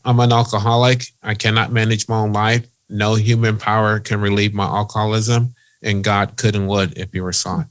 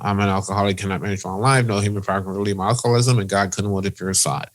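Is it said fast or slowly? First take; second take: slowly; fast. First: It is said at a slow pace. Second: It is said at a quick pace.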